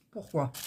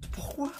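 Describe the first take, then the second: First: Said in the usual way. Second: High, incredulous squeak of a question; exasperated why. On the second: Real, not acted. To herself as the ruler won't fit, high exasperated. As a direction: let the pitch jump up in disbelief. Ruler no longer fits the canvas.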